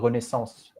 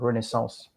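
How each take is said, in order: First: The name is said with an English accent. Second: The name is said with a French accent.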